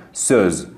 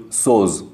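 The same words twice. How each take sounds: First: سوز with a throaty ö; correct ö. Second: سوز with a plain o; wrong vowel. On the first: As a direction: say سوز the right way with ö. (سوز با صدای ا) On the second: (سوز با صدای او) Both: Shown as a demonstration. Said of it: "غلطه".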